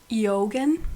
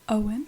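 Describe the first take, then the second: First: The name is said with a 'g' sound. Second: The name is said like 'Owen', no 'g'. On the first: The speaker calls it wrong. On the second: The speaker calls it right.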